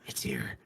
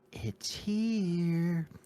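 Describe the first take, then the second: First: It is said in a soft whisper. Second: It is said in a normal full voice. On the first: The speaker calls it right. "he whispered" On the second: The speaker calls it wrong. "He wouldn't say it that way"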